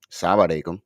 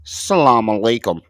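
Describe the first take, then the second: First: Arabic-accented "Salam alaikum", lower. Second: Put-on "Salaam alaikum" plain and flat, louder, no accent; imitating his flat American "Salaam alaikum"; mocking his greeting. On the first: Shown as a demonstration. Showing friends the Arabic-accented greeting. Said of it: "with an accent". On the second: Mocking the clip's man to friends, flat American greeting. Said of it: "Listen how he say it".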